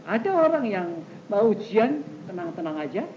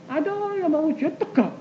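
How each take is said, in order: First: Easy, unruffled delivery; relaxed and matter-of-fact; calm. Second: High-pitched, keyed-up delivery; tense. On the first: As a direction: say it as someone untroubled. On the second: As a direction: say it as someone on edge. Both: Acted.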